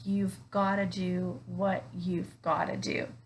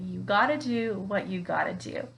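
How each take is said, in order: First: Every word is said fully and clearly. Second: Sounds are reduced and some words dropped. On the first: "or sometimes you might hear it as" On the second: "we reduce a lot of sounds. We uh, leave out words"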